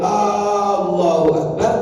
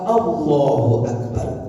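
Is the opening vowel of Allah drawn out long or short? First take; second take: long; short. First: The opening vowel is drawn out long. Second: The opening vowel is short and plain. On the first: It asks whether God is great. The speaker calls it wrong. "kalau Allahu Akbar itu bertanya" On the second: It states that God is great. The speaker calls it right. "Allah aslinya, asalnya itu uh"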